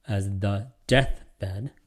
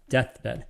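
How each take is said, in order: First: "deathbed" very slow with a rise; stress on deathbed. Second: "deathbed" said quickly and level; just say "deathbed" plainly. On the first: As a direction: stretch out "deathbed" and lift it. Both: Shown as a demonstration. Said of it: "rather than deathbed".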